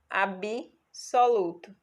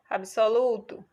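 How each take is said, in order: First: An extra vowel is inserted between b and s. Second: The b and s meet with no vowel between. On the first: This is the spoken, colloquial form. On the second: This is the standard, formal form.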